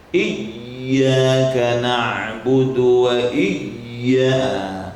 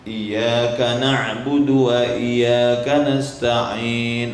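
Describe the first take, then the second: First: Slow Iyyaka with the ya squeezed too hard; over-tighten the shadda in Iyyaka; overly tense recitation. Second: Slow Iyyaka with the doubled ya too slack; under-press the shadda in Iyyaka; lax, not tight enough recitation; too loose. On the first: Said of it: "terlalu ketat". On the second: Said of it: "kurang ketat". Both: Shown as a demonstration.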